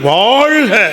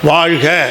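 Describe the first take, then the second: First: The first vowel is drawn out and lifted. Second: The first vowel is short and the sound drops. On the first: The speaker calls it right. "ஒலி குறைஞ்சிடக்கூடாது" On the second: The speaker calls it wrong. "அப்படி சொல்லக்கூடாது"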